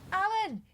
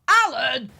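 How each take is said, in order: First: It is a casual, friendly call. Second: It is an exasperated shout after long calling.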